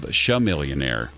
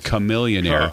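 First: The name begins with an sh sound. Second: The name begins with a k sound. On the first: The speaker calls it wrong. "I've been mispronouncing it forever" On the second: The speaker calls it right. "It's chameleonaire. Ka"

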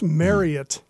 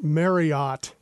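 First: The word is said to rhyme with Elliot. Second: The word is said not rhyming with Elliot. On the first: The speaker calls it right. "It's Marriott. ... It's pronounced just like Elliot" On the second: The speaker calls it wrong. "It's not Marriott"

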